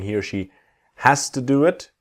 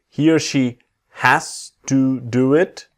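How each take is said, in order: First: "Has to" is blended into one word, "hasta". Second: "Has to" is said as two full words.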